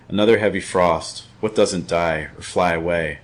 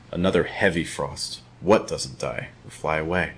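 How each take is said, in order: First: "frost", "die" and "away" stressed evenly; last-word stress. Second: Softer, lower, stress moved early onto "heavy" and "What"; changed stress. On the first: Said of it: "first time stressing just the last word". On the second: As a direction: lean on "heavy" and "What", easing off after. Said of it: "second time changing the stress". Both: Shown as a demonstration.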